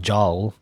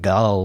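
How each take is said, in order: First: It starts with a j sound and rhymes with howl. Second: It starts with a hard g and has a short u. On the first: "or I don't know, jowl" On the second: "not like gull"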